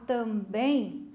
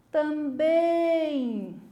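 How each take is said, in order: First: Said in the usual way. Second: Drawn-out call with BÉM held long; long, ringing final syllable on "também". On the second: Shown as a demonstration. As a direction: call "também" slowly, stretching the last syllable. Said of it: "Eu vou gritar".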